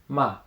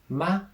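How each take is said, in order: First: The pitch falls sharply from high. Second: The pitch stays high and level. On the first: "the fourth tone, ma. ... a little bit sharper, down" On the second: "first tone"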